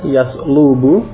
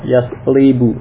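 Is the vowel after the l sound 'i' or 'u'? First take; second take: u; i. First: The vowel after the l is u. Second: The vowel after the l is i. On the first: "mudhari'nya dengan bomah yaslubu" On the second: "juga bisa dengan kasrah yaslibu"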